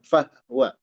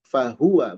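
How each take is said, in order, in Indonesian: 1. Bunyi h langsung ke w, tanpa vokal. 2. Vokal u mengikuti bunyi h. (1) "bukan fahwa" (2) "Fahuwa bukan fahwa"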